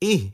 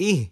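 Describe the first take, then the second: Both takes have the same delivery.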